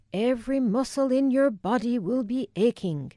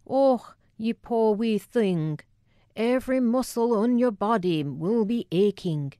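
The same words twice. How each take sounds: First: Thick Scottish brogue on every word; Scottish accent. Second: Put-on thick Scottish accent. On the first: Retold or imitated. Family catch cry quoting Wilma, in a thick Scottish accent. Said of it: "my Scottish accent was pitch perfect". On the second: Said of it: "the incongruous thickness of her accent".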